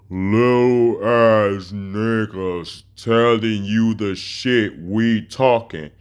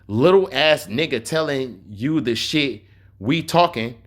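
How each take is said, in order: First: It is read very slowly. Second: It is read at a normal speed.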